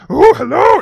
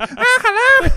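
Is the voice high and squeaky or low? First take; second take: low; high and squeaky. First: It is said in a low voice. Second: It is said in a high squeaky voice.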